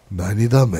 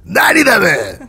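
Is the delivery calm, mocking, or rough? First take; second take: calm; rough. First: The line is said in a calm, even voice. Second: The line is said in a rough, harsh voice. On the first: "차분하게" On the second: "거칠지만"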